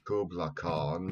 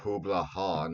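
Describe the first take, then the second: First: The name begins with a hard K sound. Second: The name begins with a soft H sound. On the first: The speaker calls it wrong. "mispronounces the name" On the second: The speaker calls it right. "there's no hard C sound in the Mongolian language"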